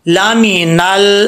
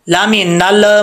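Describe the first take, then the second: First: The L is smooth without an echoing release. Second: The L is bounced with an echoing release. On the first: The speaker calls it right. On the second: The speaker calls it wrong.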